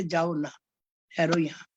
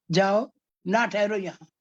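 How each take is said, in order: First: "जाओ ना" together, break, then "ठहरो यहाँ"; pause after ना. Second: "जाओ", break, then "ना ठहरो यहाँ" as a dismissal; pause after जाओ. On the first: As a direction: ask a dear one to stay, pausing after "ना". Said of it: "हमारा प्यारा तो हम उसको कहते". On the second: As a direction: send them away: stop after "जाओ", join "ना" to "ठहरो". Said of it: "चला जा तू, बस". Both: Shown as a demonstration.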